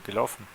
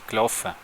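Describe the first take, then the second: First: It is said with a Standard German accent. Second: It is said with a Swiss German accent. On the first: "Und auf Hochdeutsch" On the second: "auf Schweizerdeutsch wird es heißen"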